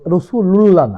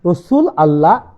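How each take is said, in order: First: It is joined with an added linking vowel. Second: It is said as two separate words. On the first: The speaker calls it wrong. "রাসূলুল্লাহ না। যারা রাসূলুল্লাহ বলে তারা বিভ্রান্ত।" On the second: The speaker calls it right. "রাসূল আল্লাহই বলতে হবে।"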